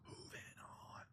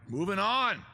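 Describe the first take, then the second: First: Breathy stage whisper; hushed, unvoiced moving on. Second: Upbeat announcement. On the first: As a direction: say it again as a secret aside. Host repeats it whispered. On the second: Real, not acted. Host moving quiz along.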